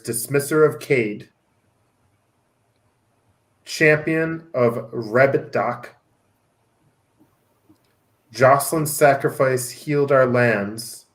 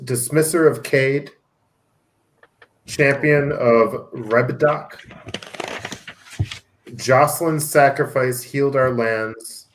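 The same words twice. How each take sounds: First: It is read slowly. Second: It is read at normal speed.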